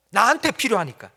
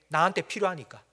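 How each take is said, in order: First: Higher and louder, pressing on 나한테; louder insistence. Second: Said in the usual way. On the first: Acted. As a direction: repeat it as a stubborn child's whine-shout. Jonah's answer repeated, louder.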